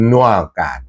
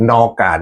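First: นัวกาด with a rounded "nua" first syllable; the fans' corrected นัวกาด; corrected pronunciation. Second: นอกาด said with a plain open "nor" first syllable; the wrong way, นอกาด with "nor"; first pronunciation. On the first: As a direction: say นัวกาด as nua-gaad, fixing the vowel. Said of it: "สำเนียงต้อง". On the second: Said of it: "พี่น้องบอกให้ออกสำเนียงให้ถูกหน่อย". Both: Shown as a demonstration.

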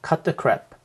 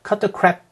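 First: "cut the crap." with the final p released clearly; 끝소리 p를 살린 "cut the crap."; clear word ending. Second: "cut the crap" with the final p swallowed; 끝소리 없이 "cut the crap"; dropped ending. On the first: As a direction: finish "cut the crap." on an audible p. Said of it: "정말 잘 들어보세요". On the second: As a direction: run "cut the crap" without closing on the p. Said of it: "하고 넘어가지 않아요". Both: Shown as a demonstration.

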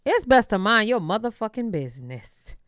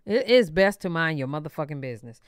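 First: Said in the usual way. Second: Lower-pitched reminder to oneself; talking to herself. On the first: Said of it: "talking to myself". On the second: Real, not acted. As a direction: say it low, as advice to yourself. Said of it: "Girl, talking to myself".

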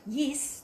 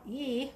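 First: YES with a tight Kiwi "yis" vowel; New Zealand accent on YES. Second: YEAH with an Australian "yee" vowel; Australian accent on YEAH; Aussie accent. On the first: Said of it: "that would be more of a Kiwi". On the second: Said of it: "that would be more of an Aussie". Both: Shown as a demonstration.

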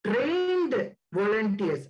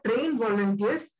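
First: "trained" drawn out slowly and held, then "volunteers"; long, slow, weighty "trained" before "volunteers"; stress on trained. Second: "trained" lightly stressed without stretching it; a quicker, firm "trained", running into "volunteers". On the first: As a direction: stretch out "trained" for heavy emphasis. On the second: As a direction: repeat with brief emphasis on "trained". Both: Real, not acted. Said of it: "I am emphasizing this word".

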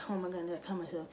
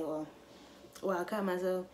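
First: Acting out being in pain, slightly higher; mock agonized crying. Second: Casually matter-of-fact. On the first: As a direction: pretend you are hurt and near tears. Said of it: "I'm in agonizing pain. I could be crying". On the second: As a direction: say it offhand, like it is no big deal. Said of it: "I could just casually say". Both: Shown as a demonstration.

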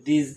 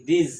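First: "these" with a long ee and a heavy z; pronouncing these. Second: "this" with a short, light ending; pronouncing this. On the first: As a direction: say "these" fuller and thicker than "this". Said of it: "একটু মোটা হবে উচ্চারণটা". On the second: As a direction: demo of "this" beside "these". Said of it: "উচ্চারণটা এটা this আর ওটা হচ্ছে these". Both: Shown as a demonstration.

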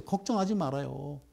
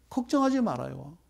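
First: Softer, low reassurance: 걱정하지 말아요; reassuring. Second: Said in the usual way. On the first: Acted. 불안한 투자자들을 달래는 부드러운 목소리. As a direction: soothe them gently.

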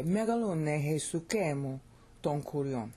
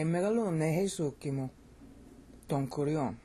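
First: Megalune Jesukemu with the accent held on the KE; Greek reading, first accent. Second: Megalune Jesukimu with the accent moved back onto SU; Greek reading, changed accent. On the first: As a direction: recite "Jesukemu ton kurion" leaning on ke. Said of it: "That's how you could say it". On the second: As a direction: recite "Jesukimu ton kurion" leaning on su. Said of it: "You'll notice that I changed the accent". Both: Shown as a demonstration.

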